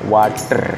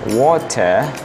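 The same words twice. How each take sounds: First: The r at the end is strongly pronounced. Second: The r at the end is dropped. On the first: "R-nya itu jelas seperti orang Indonesia ya" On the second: "R-nya hilang"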